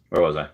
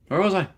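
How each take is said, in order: First: Said in the usual way. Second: Where was I? lifted much higher, sing-song on "was". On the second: Shown as a demonstration. Lost his place on stream, a high sing-song "was". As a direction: float "was" up high like a playful question.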